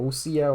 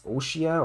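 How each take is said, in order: First: "Osia" said with an s sound; alternative pronunciation. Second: "Oshia" said with a sh sound; pronunciation guess. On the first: Player unsure of the arc's name, "Osia" with s. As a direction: offer "Osia" with s instead of sh. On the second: Player guessing an arc's name, "Oshia" with sh. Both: Shown as a demonstration. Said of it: "don't really know how it's pronounced".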